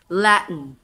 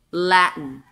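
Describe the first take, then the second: No difference in how they are said.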